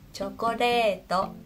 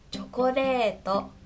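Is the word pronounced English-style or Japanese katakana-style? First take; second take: Japanese; Japanese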